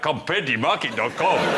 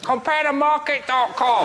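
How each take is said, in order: First: It is said in a put-on Nigerian accent. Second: It is said in a put-on Chinese accent. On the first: "if it was Nigerian" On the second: "if those meerkats had Chinese voices"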